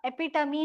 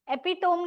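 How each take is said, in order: First: एपिटमी in four syllables, e-pi-tuh-mee; correct pronunciation. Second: एपिटोम ending like "tome"; mispronunciation. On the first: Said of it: "एपिटमी होता है". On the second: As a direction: say एपिटोम as three syllables, epi-TOME. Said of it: "एपिटोम नहीं होता". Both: Shown as a demonstration.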